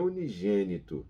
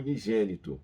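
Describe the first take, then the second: First: The word is said with the Portuguese G sound. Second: The word is said with the Spanish G sound. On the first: The speaker calls it wrong. "não é unigênito" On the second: The speaker calls it right. "Você não vai falar como se fala no português"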